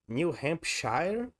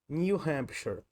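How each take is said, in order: First: The ending sounds like the standalone word shire. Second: The ending sounds different from the word shire. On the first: The speaker calls it wrong. "Como é que se pronuncia essa palavra aí? New Hampshire? Não" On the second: The speaker calls it right. "Muda a pronúncia. A pala- Nesse caso, a pronúncia desse nome desse estado é New Hampshire"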